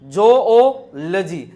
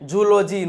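First: The first vowel is an 'oh' sound. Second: The first vowel is a short 'oo' sound. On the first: The speaker calls it right. "જો જોઓલજી" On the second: The speaker calls it wrong. "એલા ભાઈ જુઓલોજી નો હોય"

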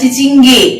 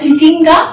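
First: The word ends in an 'e' vowel. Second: The word ends in an 'a' vowel. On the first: This is how West Bengal locals say it. "এদেশি যারা তারা বলে চিচিঙ্গে" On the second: This is how East Bengal people say it. "বাঙাল যারা পূর্ববঙ্গের মানুষ তারা বলে চিচিঙ্গা"

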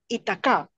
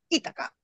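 First: The name is pronounced the French way. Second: The name is pronounced the Spanish way. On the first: This is how it is said in French. "en francés se dice así" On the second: This is how it is said in Spanish. "yo le digo en española"

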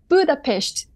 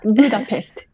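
First: Budapest is pronounced the Hungarian way. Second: Budapest is pronounced the English way. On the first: The speaker calls it right. "please pronounce Budapest" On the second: The speaker calls it wrong. "not Budapest"

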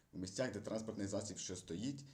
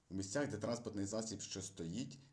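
The two takes are said the same way.

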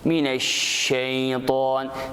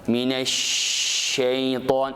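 First: The sh sound is crisp and short. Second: The sh sound is spread and drawn out. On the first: The speaker calls it right. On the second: The speaker calls it wrong.

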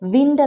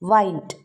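First: The vowel is short, as in bit. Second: The vowel is a diphthong, as in bite. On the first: It names moving air. "ഇത് noun ആണെങ്കിൽ വിൻഡ് എന്നാണ് പറയുക" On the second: It names an action of turning. "ഇനി അത് വെർബാണെങ്കിൽ വൈൻഡ് എന്നാണ് പറയുക"

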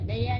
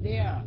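First: The first sound is made without the tongue out. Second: The first sound is made with the tongue out. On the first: The speaker calls it wrong. "chứ không phải là there nha" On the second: The speaker calls it right. "Le lưỡi ra nha"

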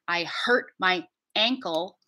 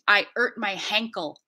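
First: The word 'ankle' starts with a glottal stop. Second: The word 'ankle' starts with an H sound. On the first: The speaker calls it right. "So correctly, that phrase would be" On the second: The speaker calls it wrong. "we're slapping the H in front of ankle instead of using a glottal stop"

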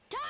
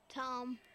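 First: The name is yelled loudly. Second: The name is said at a normal volume.

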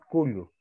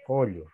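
First: The first vowel is a closed u. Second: The first vowel is an open o. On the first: The speaker calls it wrong. "No decimos cullo" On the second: The speaker calls it right. "Esta U cambia a O"

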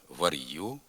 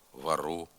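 First: A hard R is followed by a y-sound. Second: The R sound is hard. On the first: This is a Dniester-region dialect pronunciation. "після твердого «р» виділився звук «й»" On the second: This is a northern dialect pronunciation. "звук «р» послідовно твердий"

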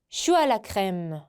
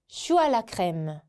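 No difference in how they are said.

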